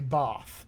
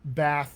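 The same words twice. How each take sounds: First: It is said in a British accent. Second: It is said in a non-British accent. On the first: "we say bath in that British accent" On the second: "instead of bath"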